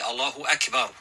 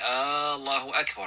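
First: No vowel is noticeably drawn out. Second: The opening vowel is drawn out long. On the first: Allah is the greatest. The speaker calls it right. "it must be said correctly" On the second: It asks whether Allah is the greatest. The speaker calls it wrong. "By extending the alif in the beginning"

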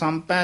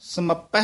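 First: The word is shortened with a nasal before p. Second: The word has a full vowel and doubled p. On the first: The speaker calls it wrong. "ਕਿਤੇ ਸੰਪੈ ਨਹੀਂ ਕਹਿ ਦੇਣਾ" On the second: The speaker calls it right. "ਸੈ ਸਹਿਸ ਸਮੱਪਹਿ ਉਚਾਰਨ ਕਰਨਾ"

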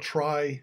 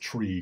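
First: The vowel is long 'eye', like 'try'. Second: The vowel is long 'ee', like 'tree'. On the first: The speaker calls it right. "I think that's the standard way people pronounce it" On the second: The speaker calls it wrong. "nobody says tree, because that would be too confusing"

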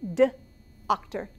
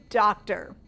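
First: The first sound is separated from the rest. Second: The first sound is joined to the rest. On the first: "The sounds again" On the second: "Put it together, what do you get?"

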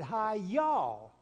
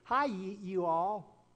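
First: You and all blend into one short word. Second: You and all are said as two separate words. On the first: The speaker sounds like a local. The speaker calls it right. "here's a guy that got it right" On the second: The speaker is an outsider to the South. The speaker calls it wrong. "they would say it like this"

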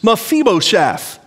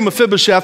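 First: The vowel spelled I sounds like a long E. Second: The vowel spelled I sounds like a short I. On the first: The speaker calls it right. "it's pronounced like two long E's" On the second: The speaker calls it wrong. "but I'm going to say Mephibosheth because that's all we really know"

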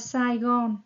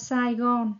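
First: It is said with Vietnamese sounds and tones. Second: It is said with Vietnamese sounds and tones.

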